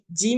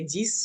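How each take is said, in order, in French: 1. Le son final est muet. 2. Le son final s est prononcé. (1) "quand on dit dix minutes, six minutes, on ne prononce pas en ex à la fin" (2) "si c'est à la fin, il n'y a pas de mot qui suit, euh, vous pouvez prononcer dix"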